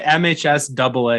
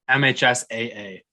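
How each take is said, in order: First: The two A's are read as 'double A'. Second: The two A's are read as separate letters. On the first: "You say M H S double A" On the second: "It's M H S A A"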